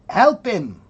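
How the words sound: It is said in a British accent. "if you're British, you might say"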